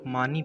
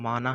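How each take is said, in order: First: The word ends with an 'ee' sound. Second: The word ends with an 'a' sound. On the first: The speaker calls it wrong. "अक्सर लोग मानी पढ़ते हैं, जो कि गलत है" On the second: The speaker calls it right. "असल तलफ़ुज़ में माना है"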